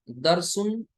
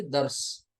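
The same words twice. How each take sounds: First: दरसुन with the final -un sounded; read as written. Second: दर्स ending on r-s, no vowel after; pausal reading. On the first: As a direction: say दरसुन in full, higher, tanween included. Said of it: "लिखा है". (दरसुन, लिखे के मुताबिक तनवीन के साथ) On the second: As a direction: drop the -un and stop on दर्स. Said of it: "पढ़ना है". (दर्स, आख़िर में वक्फ) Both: Shown as a demonstration.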